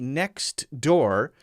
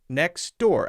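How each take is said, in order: First: The t is pronounced, with a choppy break. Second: The t is dropped and the words run together. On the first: The speaker calls it wrong. "it's broken and now it sounds a little bit choppy. It's correct, but is it natural?" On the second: The speaker calls it right. "most people are going to say next door ... the T isn't really there at all"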